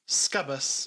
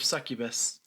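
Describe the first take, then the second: First: The word is squeezed into two syllables. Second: The word is said with three full syllables. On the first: The speaker calls it wrong. "pronounces it scubbus instead of succubus" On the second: The speaker calls it right. "instead of succubus"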